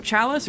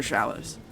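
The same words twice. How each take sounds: First: "Chalice" with a hard CH as in "chair"; "ch" pronunciation. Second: "Chalice" with a soft SH as in "shall"; "sh" pronunciation. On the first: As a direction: start "Chalice" with a "tch" sound. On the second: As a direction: start "Chalice" with a "sh" sound. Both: Shown as a demonstration. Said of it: "Is it Chalice or Chalice?".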